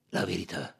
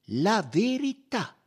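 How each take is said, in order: First: "La verità" echoed in a low, subdued voice; muted, doubtful repeat of "La verità"; uneasy echo. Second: High, loud, drawn-out VERITÀ; slow, emphatic insistence on "La verità"; firm demand. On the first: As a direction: hand "La verità" back warily, without force. Suspect echoes Poirot's demand. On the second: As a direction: demand "La verità" slowly in a raised voice. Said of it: "replicò Poirot con fermezza". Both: A narrator's reading.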